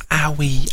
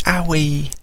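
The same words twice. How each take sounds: First: Higher babyish owie, voiced; baby voice calling for her sister; baby talk. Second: Put-on owie whispered in a babyish voice; baby whispering her sister's name; whispered baby talk. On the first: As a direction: call owie like a toddler. Baby saying sister's name.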